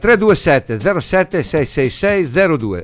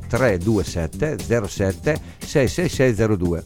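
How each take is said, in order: First: The number is read at a quicker pace. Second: The number is read at a slower pace.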